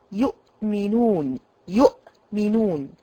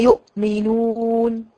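First: يؤمنون with the hamza cut off abruptly; يؤمنون chopped at the hamza, the wrong way; يؤمنون بقطع خاطئ; wrong choppy hamza. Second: يؤمنون drawn out, the hamza eased gently; يؤمنون بلطف ورفق; gentle hamza. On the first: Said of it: "أنا مش عايزة أقطع الكلمة كده". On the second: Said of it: "تخرج زي ما قلنا بلطف ورفق". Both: Shown as a demonstration.

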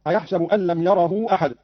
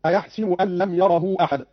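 First: Said in the usual way. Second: "أيحسب" with -si- in the middle; kasra on seen. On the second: Shown as a demonstration. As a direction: say "أيحسب" as ayahsibu, not ayahsabu. ("أيحسب" بكسر السين) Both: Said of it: "قرأ قالون بكسر السين".

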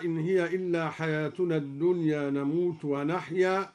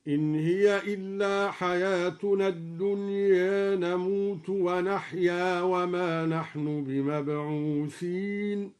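First: Said in the usual way. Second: الدنيا ending tilted toward e, slow recitation; الدنيا with taqlil, measured. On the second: Shown as a demonstration. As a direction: recite slowly, leaning الدنيا toward dunye. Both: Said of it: "بتقليل الدنيا هكذا".

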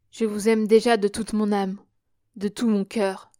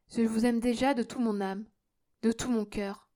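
First: Loud, heartfelt declaration of love; fervent declaration. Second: Tender, restrained declaration of love; gentle declaration. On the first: Brother to newfound sister, fervently affectionate. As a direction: push it out with conviction. Same declaration, more forceful take. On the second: Declaring love, first softer take. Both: A narrator's reading.

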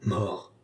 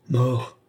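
First: A hushed «Mort» from the sleeping woman; said very softly. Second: «Mort» sung out higher and seductive; intoxicating voice. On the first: Lorenza at Balsamo's feet, a soft murmured «Mort». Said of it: "dit-elle tout bas". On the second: Lorenza tempting Balsamo, a higher seductive «Mort». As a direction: lure him with «Mort». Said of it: "répéta-t-elle de sa voix enivrante". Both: A narrator's reading.

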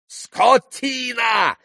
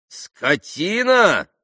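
First: Very high, drawn-out yell; yelled insult. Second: High, drawn-out indignant echo; indignant retort. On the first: Pan insults the rude landlord, yelling. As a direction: bellow the insult, stretching it out. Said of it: "заорал было пан Врублевский". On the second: Landlord echoes the pan's insult, indignant. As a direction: throw the insult back as an outraged question. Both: A narrator's reading.

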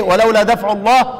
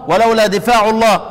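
First: "دفع" said daf', short a and silent f-vowel; fatha then sukun. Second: "دفاع" said difaa', i then long a; long-vowel reading difa'. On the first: Teacher contrasting Quran readings, "دفع" with fatha and sukun. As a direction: read "دفع" as one short syllable, daf'. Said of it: "فتح وساكن". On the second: Teacher contrasting Quran readings, "دفاع" with kasra and long alif. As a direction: read "دفاع" with a drawn long a after the f. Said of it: "دفاع موجودة في الإيه؟". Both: Shown as a demonstration.

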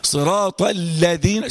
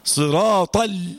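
First: صراط الذين read slowly with the لام of الذين clear and full; showing the reading. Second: صراط stressed and held, then a clipped ال; cut-off demo. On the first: Teacher shows students the right reading, slow and clear. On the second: Teacher shows students the stop on the لام, slow. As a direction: stop right after the ال of صراط ال. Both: Shown as a demonstration. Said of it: "شوف انا عملت ازاي؟".

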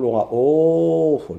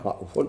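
First: رؤوف slowly, with the long madd; long reading. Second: رؤوف clipped short, without madd; short reading. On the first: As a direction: draw out رؤوف. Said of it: "الجمهور يقول رؤوف". (رؤوف بالمد ببطء) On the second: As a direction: say رؤوف briefly. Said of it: "ما يزيدوش عليه". (رؤوف بالقصر) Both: Shown as a demonstration.

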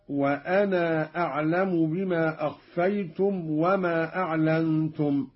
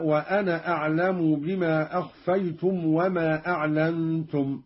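First: وأنا recited with a long "naa" before أعلم; lengthened alif. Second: Said in the usual way. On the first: Shown as a demonstration. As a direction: draw out the final alif of وأنا. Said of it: "بإثبات الألف بعد النون ممدودة". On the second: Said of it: "بإثبات الألف بعد النون".

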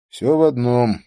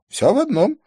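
First: Said in the usual way. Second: High-pitched, raised answer; high echoed reply. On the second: Acted. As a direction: echo it back in a much higher voice. Man answers back with same words.

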